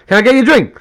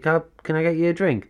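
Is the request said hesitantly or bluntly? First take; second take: bluntly; hesitantly. First: It is said bluntly, with no hesitation. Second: It is said hesitantly, with stumbling and fillers.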